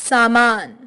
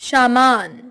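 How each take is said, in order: The two takes are said the same way.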